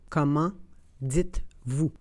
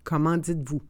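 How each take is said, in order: First: It is said slowly and carefully. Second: It is said at normal conversational speed. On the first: "then slowly said in French" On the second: "and then in communicational Canadian French"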